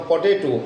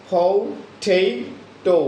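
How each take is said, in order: First: Said in the usual way. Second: ফটেটো very slow, aspirated with a stressed middle; phonemic stressed potato. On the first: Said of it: "যেমন আমরা বলতাম পটেটো". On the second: Shown as a demonstration. Teacher modelling the phonemic English potato, very slow. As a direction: stretch ফটেটো right out, leaning on টে. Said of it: "phonemic সাউন্ডসে উচ্চারণ করে থাকবো".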